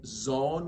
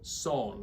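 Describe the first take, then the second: First: The word begins with a buzzing Z sound. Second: The word begins with a hissing S sound. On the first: The speaker calls it wrong. "some people like to say zone with a Z" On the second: The speaker calls it right. "So son with an S"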